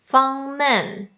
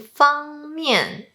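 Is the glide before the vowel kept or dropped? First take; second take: dropped; kept. First: The glide before the vowel is dropped. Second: The glide before the vowel is kept. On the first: The speaker calls it wrong. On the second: The speaker calls it right.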